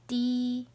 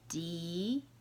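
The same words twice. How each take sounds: First: The pitch stays high and level. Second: The pitch rises from middle to high.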